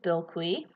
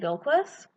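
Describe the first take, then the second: First: The name is said in a French way. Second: The name is said in a non-French way. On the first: The speaker calls it wrong. "I thought it was pronounced the French way" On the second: The speaker calls it right. "finally actually learning how to say Bilquis"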